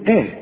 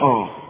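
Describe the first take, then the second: First: The opening sound is light and thin. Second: The opening sound is heavy and thick. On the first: The speaker calls it right. "كل همزة في القرآن ترقق" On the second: The speaker calls it wrong. "ما نقولش آه"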